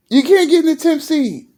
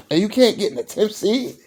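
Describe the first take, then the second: First: "can't" hit hard, higher and louder; incredulous stress on "can't"; emphatic repeat. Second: Said in the usual way. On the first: Shown as a demonstration. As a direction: punch "can't" in disbelief. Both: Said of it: "repeats line for emphasis".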